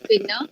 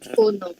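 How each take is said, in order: First: It ends in an a vowel. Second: Both vowels are o. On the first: "transkripsi fonetik bahasa Melayu" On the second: "Transkripsi fonetik Negeri Sembilan"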